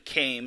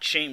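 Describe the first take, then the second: First: The name begins with a k sound. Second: The name begins with an sh sound. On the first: The speaker calls it right. "It's actually Kame" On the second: The speaker calls it wrong. "not Shame Shulk"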